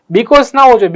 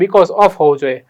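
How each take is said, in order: First: "Because" raised and louder as the wrong choice; teacher marking "Because" as wrong; wrong form stressed. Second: "because of" said lower and settled, as the right answer; teacher confirming "because of" as right; correct form settled. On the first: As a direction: flag "Because" as the mistake with a lift. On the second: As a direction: land "because of" calmly and firmly. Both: Shown as a demonstration.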